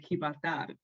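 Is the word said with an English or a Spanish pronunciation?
Spanish. It is said with a Spanish pronunciation. The speaker calls it right. "They say Gibraltar"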